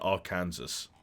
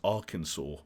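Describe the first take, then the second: First: The name is said a non-American way. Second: The name is said the American way. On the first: "rather than Arkansas" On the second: "Americans pronounce Arkansas"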